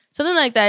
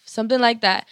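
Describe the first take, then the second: First: Louder emphatic repeat. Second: Said in the usual way. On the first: Real, not acted. Repeats to wrap up the story.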